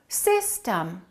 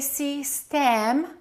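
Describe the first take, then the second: First: The second syllable has a reduced vowel. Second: The second syllable has a full vowel. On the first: The speaker calls it right. "The first syllable is stressed, the second syllable is reduced" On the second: The speaker calls it wrong. "We don't say system"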